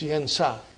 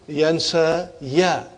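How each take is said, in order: First: The word ends on a plain long 'a'. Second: The word ends with an added 'ya' syllable. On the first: The speaker calls it right. "it's yansa" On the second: The speaker calls it wrong. "Instead of saying yansa ya"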